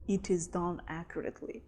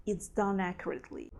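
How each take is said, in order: First: "It is" said in full as two separate words. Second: "It's" short and linked into "done"; contracted it's. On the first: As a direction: pronounce "It" and "is" apart, uncontracted. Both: Shown as a demonstration. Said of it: "We don't say".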